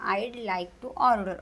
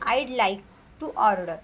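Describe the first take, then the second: First: 'Would' is contracted into 'I'd'. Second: The same.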